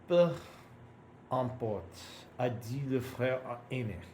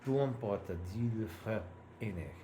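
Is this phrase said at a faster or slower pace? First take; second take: slower; faster. First: The phrase is read at a slower pace. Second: The phrase is read at a faster pace.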